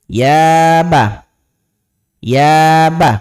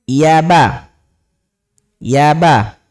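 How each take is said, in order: The two takes are said the same way.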